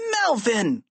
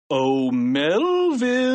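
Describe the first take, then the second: First: Short, high, aghast exclamation; appalled kid's outburst; horrified cry. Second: Slow singsong summons, rising high; long, lilting devilish call. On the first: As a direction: cry the name out in horror, falling at the end. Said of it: "cried George, horrified". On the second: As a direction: call sweetly and slyly, stretching the name. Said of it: "he called". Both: A narrator's reading.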